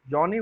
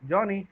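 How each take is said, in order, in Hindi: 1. पिच नीचे से ऊपर की ओर जाती है। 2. शब्द सामान्य, सपाट पिच में बोला गया है। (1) "अब इसको लो टू हाई करते हैं इसी वर्ड को" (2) "नॉर्मल नॉर्मल पिच है ये"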